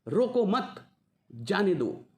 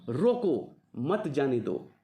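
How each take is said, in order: First: The pause comes right after 'mat'. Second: The pause comes right after 'roko'.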